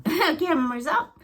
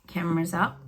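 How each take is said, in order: First: High, slow, laughing repeat. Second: Said in the usual way. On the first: Real, not acted. Psychic amused by her vision, laughing it out. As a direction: let the laugh lift it way up.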